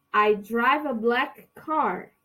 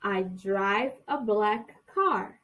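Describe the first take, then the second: First: Slow it down so students can repeat; slow model sentence. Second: Even slower for the repetition; slower model sentence. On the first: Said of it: "vocês vão repetir pra mim". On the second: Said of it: "De novo". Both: Shown as a demonstration.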